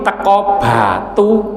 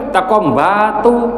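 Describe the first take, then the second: First: Batu starts with a plain b sound. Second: Batu starts with a nasal m sound. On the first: This is the original way the name is said. "harusnya kita teko di teko Batu" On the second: This is the everyday Javanese dialect way. "itu ada M-nya ndak?"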